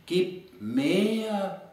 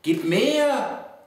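First: Higher, drawn-out call held back in volume; recited call, lingering on MEHR; restrained echoing call. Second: High, drawn-out poetic cry; recited call with a raised voice. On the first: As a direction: stretch MEHR out like a fading echo. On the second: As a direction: call it out high on MEHR, then let it fall. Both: Acted. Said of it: "und wir rufen laut".

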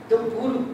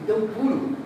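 The two takes are said the same way.

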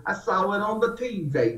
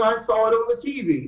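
First: Put-on Southern accent. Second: Said in the usual way. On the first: Quoting his Southern friend, in a light Southern accent. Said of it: "With the Southern accent". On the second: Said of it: "Now, he's Southern".

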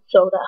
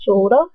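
First: Said in the usual way. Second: "Soda" held up as a rising question; mocked pronunciation. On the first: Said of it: "how I said soda". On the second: Vlogger echoing those who made fun of her, questioning "Soda". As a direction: echo "Soda" questioningly, showing the teased pronunciation. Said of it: "they made fun of me for how I said soda".

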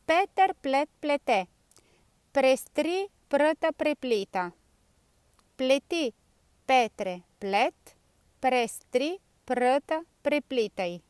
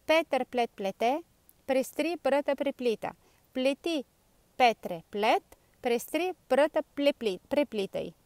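First: Scioglilingua lento, parola per parola; slow tongue twister. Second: Un po' più svelto, ma ancora scandito; faster tongue twister. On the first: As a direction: dillo piano, sillaba per sillaba. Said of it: "ve la dico prima piano piano". (lo scioglilingua detto prima piano piano) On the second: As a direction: prova a dirlo più in fretta. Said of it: "proviamo un po' più velocemente". (lo scioglilingua ripetuto un po' più velocemente) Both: Shown as a demonstration.

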